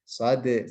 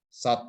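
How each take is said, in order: First: The final consonant is released with an echoing bounce. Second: The final consonant stops flat without an echo. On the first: The speaker calls it right. "ternyata dal itu ada pantulannya. Sode seperti itu" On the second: The speaker calls it wrong. "Dulu kita juga diajari kadang sod gitu aja ya"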